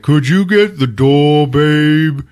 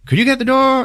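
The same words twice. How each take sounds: First: Loud, slow, dragged-out reply; mock oafish husband voice; acted lazy husband. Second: High, light wife voice; put-on high housewife voice; acted wife's request. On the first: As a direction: toss the request back lazily and loudly. Lazy husband passes it back. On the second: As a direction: call to a husband across the house. Wife asks husband.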